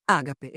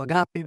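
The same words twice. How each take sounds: First: "Ágape" stressed on the first syllable, Á-ga-pe; Spanish stress. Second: "agape" stressed on the last syllable, a-ga-PE, with a small rise; Greek stress. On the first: Priest giving the Spanish stress of "Ágape", first syllable stressed. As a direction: say "Ágape" with the weight on the opening Á, as a Spanish esdrújula. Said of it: "En castellano se dice ágape". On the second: Priest giving the Greek stress of "agape", last syllable stressed. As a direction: put the weight on the final "pe" of "agape", the Greek way. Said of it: "En griego se dice agape".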